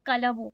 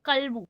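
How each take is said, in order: First: An extra vowel separates the L and B. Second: The L and B are joined with no vowel. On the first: The speaker calls it wrong. "not kalabu" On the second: The speaker calls it right. "how do we need to pronounce? Haza kalbu"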